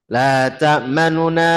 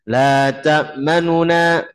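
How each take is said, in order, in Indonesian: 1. Terdengar vokal pendek dan cepat di antara bunyi n. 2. Terdengar vokal pendek dan cepat di antara bunyi n.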